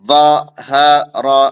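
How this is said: The syllables are said separately with pauses. "अलग अलग करके पढ़ेंगे"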